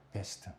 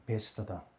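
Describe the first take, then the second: First: Laughing whisper. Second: Said in the usual way. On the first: Real, not acted. 웃으며 베스트를 되풀이.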